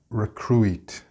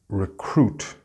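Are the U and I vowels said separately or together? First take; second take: separately; together. First: The U and I are sounded separately. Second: The U and I are not sounded separately. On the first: The speaker calls it wrong. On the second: The speaker calls it right.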